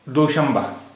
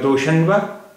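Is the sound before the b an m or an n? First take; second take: m; n. First: It has an m sound before the b. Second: It has an n sound before the b. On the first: The speaker calls it right. "it is pronounced as doshamba" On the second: The speaker calls it wrong. "Instead of uh"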